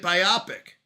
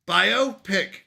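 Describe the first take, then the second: First: "biopic" said as bye-OP-ick; short O in "biopic", stressed in the middle; joined as one word. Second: "Biopic" said as BIO, PICK; "Biopic" as bye-oh pick, pulled apart; two separate words. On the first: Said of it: "Put it together and you get". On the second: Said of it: "those are two separate words". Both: Shown as a demonstration.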